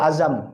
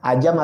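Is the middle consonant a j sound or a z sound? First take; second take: z sound; j sound. First: The middle consonant is a z sound. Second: The middle consonant is a j sound. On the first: This is how it is usually said. "biasanya ngomong azam" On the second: This is how Betawi people say it. "kalau orang Betawi bilang ajam"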